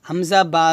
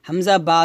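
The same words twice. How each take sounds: The two takes are said the same way.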